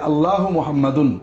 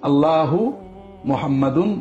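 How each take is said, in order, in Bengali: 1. দুটো শব্দ একসাথে মিলিয়ে একটা করে বলা হয়। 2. দুটো শব্দ আলাদা করে বলা হয়। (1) "দুটো একসাথে" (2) "দুটো শব্দ আলাদা আলাদা উচ্চারণ"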